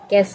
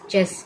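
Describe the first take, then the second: First: The word begins with a 'k' sound. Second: The word begins with a 'ch' sound. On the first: The speaker calls it wrong. "इसे हम कैस नहीं कहेंगे" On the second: The speaker calls it right. "चेस कहेंगे इसे हम"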